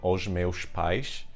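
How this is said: The s sounds are hushing sh sounds. "in Portugal ... this sh, sh, sh sound really comes in"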